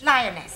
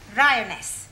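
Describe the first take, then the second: First: The word begins with an L sound. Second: The word begins with an R sound. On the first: The speaker calls it right. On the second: The speaker calls it wrong. "You're not saying it right"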